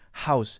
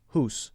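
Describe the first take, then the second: First: The vowel sounds like 'ow'. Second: The vowel sounds like 'oo'. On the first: "Americans will say house" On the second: "Canadians might more so say hoose"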